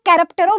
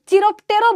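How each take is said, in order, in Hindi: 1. यह शब्द 'k' ध्वनि से शुरू होता है। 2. यह शब्द 'ch' ध्वनि से शुरू होता है। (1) "करेक्ट प्रोनाउंसिएशन यही होगा" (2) "अपने स्कूल में चिरोप्टेरो बोलते थे"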